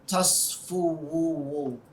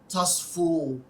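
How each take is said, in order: First: An extra 'wu' syllable is added at the end. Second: The word ends after 'fu' with no extra syllable. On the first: The speaker calls it wrong. "you don't say tasfuwu" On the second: The speaker calls it right. "It's the way it's pronounced"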